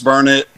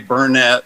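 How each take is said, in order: First: The stress is on the first syllable. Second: The stress is on the second syllable. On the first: The speaker calls it right. "Yes, it's Burnett. ... it's burn it, darn it, learn it" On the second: The speaker calls it wrong. "Don't ever say Burnett, or people around here will get after you"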